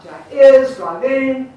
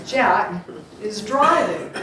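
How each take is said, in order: First: "Jack is driving" with IS punched loud, and driv-ING; "Jack is driving" with the beats on the wrong syllables, IS and ING; wrong stress on IS. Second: "Jack is driving" with beats on JACK and DRI; "Jack is driving" in its natural rhythm; stress on JACK and DRIVING. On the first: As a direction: hit "is" and the end of "driving" hard. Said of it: "It's not Jack is driving". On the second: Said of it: "it's Jack is driving". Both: Shown as a demonstration.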